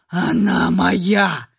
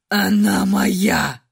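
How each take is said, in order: First: Low, slow guttural growl; growling claim. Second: Low, slow growl, same as before, stubborn; repeating like a broken record. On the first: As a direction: drag it out like a beast guarding prey. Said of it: "Второй Ашер издавал утробное рычание". (утробное рычание) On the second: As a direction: grind out the same claim mechanically. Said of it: "как заезженная пластинка повторял Ашер". (как заезженная пластинка) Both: A narrator's reading.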